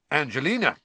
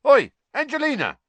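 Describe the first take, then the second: First: Quick confident answer, pitched higher; prompt, unembarrassed. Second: High, loud call across a room. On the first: Fred naming his date to Ron, promptly. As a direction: answer straight off, without embarrassment. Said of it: "said Fred promptly". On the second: Fred hailing Angelina across the common room, calling out. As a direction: holler to get her attention. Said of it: "called across the common room". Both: A narrator's reading.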